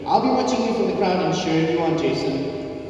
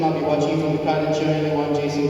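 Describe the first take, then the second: First: It is read lively, with much expression. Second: It is read flatly, with little expression. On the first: The speaker calls it right. "I read that with such expression, with passion, with want" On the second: The speaker calls it wrong. "I didn't read it like that"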